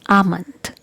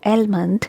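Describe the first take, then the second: First: The L sound is silent in the word. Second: The L sound is pronounced in the word. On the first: The speaker calls it right. "letter L is silent" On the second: The speaker calls it wrong. "It's not almond"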